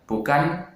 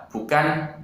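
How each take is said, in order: No difference in how they are said.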